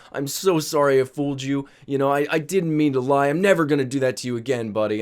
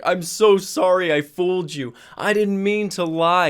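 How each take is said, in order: First: Lightly voiced drunk father, imitated; profusely apologetic dad. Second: Put-on drunk apologetic dad. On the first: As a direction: keep apologizing, milder and running on. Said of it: "he's apologizing profusely again". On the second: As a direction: whine out a wasted father's apology. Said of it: "But the dude was wasted".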